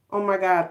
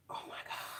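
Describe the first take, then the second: First: Said in the usual way. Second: Breathless, stunned whisper under the breath; shocked whisper. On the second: Real, not acted. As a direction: let it slip out as a whisper of disbelief. Shocked reaction to heartbreaking scene.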